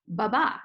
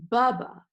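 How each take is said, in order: First: "ba-ba" with short first, longer stressed second. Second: "bubba" with strong BUB, weak "ba"; stress on first syllable. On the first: Teacher spelling out the iamb rhythm, stress on the last "ba" of "ba-ba". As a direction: hit the second syllable of "ba-ba". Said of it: "short unstressed syllable and a longer stressed syllable". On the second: Teacher showing the trochee's reverse rhythm, first syllable of "bubba" stressed. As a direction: hit the first syllable of "bubba", drop the second. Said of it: "It's stressed and then unstressed". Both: Shown as a demonstration.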